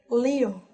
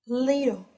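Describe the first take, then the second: Both takes have the same delivery.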